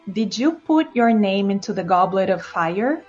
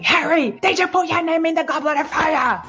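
First: The question is asked calmly. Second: The question is asked urgently.

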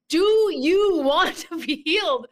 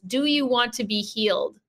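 First: It is said very loudly, almost shouting. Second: It is said at normal volume.

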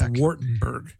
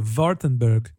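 First: The name begins with a W sound. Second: The name begins with a V sound. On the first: "in American it's English" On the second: "I'm trying to do the V instead of the W"

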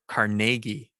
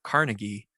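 First: The name is said the local Pittsburgh way. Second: The name is said the usual non-Pittsburgh way. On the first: This is how locals in Pittsburgh say it. "They pronounce it Carnegie" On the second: This is how people outside Pittsburgh say it. "In Pittsburgh, they don't pronounce it Carnegie"

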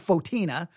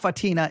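First: The first syllable sounds like 'fo'. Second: The first syllable sounds like 'fa'. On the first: The speaker calls it wrong. "I want to say Fotina" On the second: The speaker calls it right. "I think Fatina is the right way to say it"

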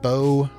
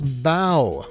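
First: The word rhymes with go. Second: The word rhymes with cow. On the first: It names a ribbon worn in the hair. The speaker calls it wrong. "not bow, like something you put in your hair" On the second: It names the front of a boat. The speaker calls it right. "It's bow, like the bow of a boat"

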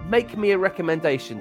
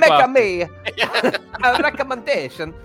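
First: It is said in the speaker's normal voice. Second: It is said in a put-on funny voice.

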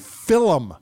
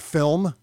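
First: The word is said with an unusual, affected pronunciation. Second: The word is said with its ordinary pronunciation.

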